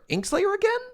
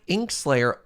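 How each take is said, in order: First: High, amazed double take; can't believe it's them again; surprised. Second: Said in the usual way. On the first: Real, not acted. Same winner shows up twice.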